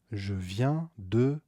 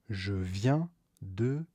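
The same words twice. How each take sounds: The two takes are said the same way.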